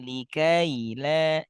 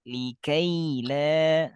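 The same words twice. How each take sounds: First: The 'ai' glide is cut short. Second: The 'ai' glide is fully held. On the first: The speaker calls it wrong. "jangan likaila" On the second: The speaker calls it right. "Layin sempurna"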